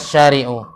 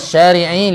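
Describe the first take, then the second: First: The word ends with a u vowel. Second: The word ends with an i vowel. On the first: The speaker calls it wrong. "Enggak mungkin fi dzalika syari'u" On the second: The speaker calls it right. "ini harus kas kasrah"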